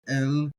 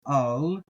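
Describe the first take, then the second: First: The vowel sounds like 'eh'. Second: The vowel sounds like 'ah'. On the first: "you can pronounce that E sound" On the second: "or the Aleph"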